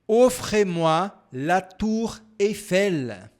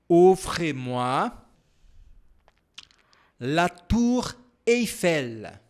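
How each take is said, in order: First: The sentence is said at a normal speed. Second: The sentence is said at a slower speed.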